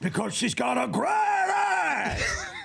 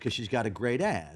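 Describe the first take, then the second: First: It is shouted loudly and explosively. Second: It is said calmly, as a plain line.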